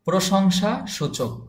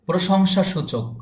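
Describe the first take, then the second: No difference in how they are said.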